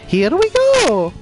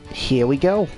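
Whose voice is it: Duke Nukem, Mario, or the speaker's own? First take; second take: Mario; own voice. First: It is said in an imitation of Mario. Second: It is said in the speaker's own voice.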